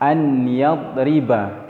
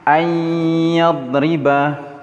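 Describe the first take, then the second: First: The n sound is pronounced clearly before y. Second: The n sound merges into a lengthened y. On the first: The speaker calls it wrong. "tidak dibaca dengan an yadriba" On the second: The speaker calls it right. "nun ini dimasukkan ke dalam huruf ya"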